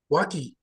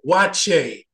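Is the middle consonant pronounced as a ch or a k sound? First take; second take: k; ch. First: The middle consonant is a hard k sound. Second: The middle consonant is a ch sound. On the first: This is how an outsider reads the spelling. The speaker calls it wrong. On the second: This is how locals say it. The speaker calls it right. "in the middle, they pronounce that K as a C-H"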